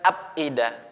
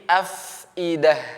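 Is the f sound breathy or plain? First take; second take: plain; breathy. First: The f is said without a puff of breath. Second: The f is said with a puff of breath. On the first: The speaker calls it wrong. "bukan afidah" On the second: The speaker calls it right. "tapi afidah dihembuskan"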